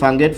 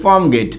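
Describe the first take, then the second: First: It is said quickly, with sounds run together. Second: It is said at a normal, careful pace.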